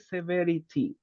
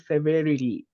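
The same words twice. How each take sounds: First: The t is pronounced as a clear, crisp t. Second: The t is pronounced softly, like an r. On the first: "If you want to emphasize the letter T, you say" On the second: "But for American English, they ... the letter T sounds like an R"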